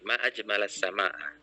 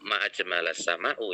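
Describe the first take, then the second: First: The last word ends with an 'a' vowel. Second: The last word ends with an 'u' vowel. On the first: It exclaims how beautiful the sky is. The speaker calls it right. "tapi ma ajmalas sama'a" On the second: It asks what makes the sky beautiful. The speaker calls it wrong. "bukan ma ajmalas sama'u yang kamu baca"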